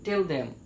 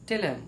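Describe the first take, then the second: First: Both words are said fully and separately. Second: The th sound drops and the words merge. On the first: The speaker calls it wrong. "আমরা পাই বলে থাকি" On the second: The speaker calls it right. "স্মার্ট ইংলিশের সময় বলতে হবে"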